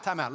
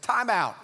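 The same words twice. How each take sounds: First: Said in the usual way. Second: Louder, higher cry of time out; mock alarmed interruption. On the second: Peter stopping Jesus mid-sentence, a louder, higher mock cry. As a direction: Peter butting in, half-acted.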